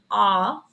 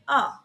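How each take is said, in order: First: Long, open "A" as in American plant; American A vowel. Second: Short British "A" as in plant; British A vowel. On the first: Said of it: "in America use the vowel A". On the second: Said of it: "in British". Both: Shown as a demonstration.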